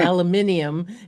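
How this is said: It is said the British way.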